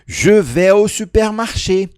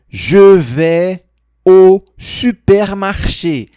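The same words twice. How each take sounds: First: It is said at normal speed. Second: It is said slowly.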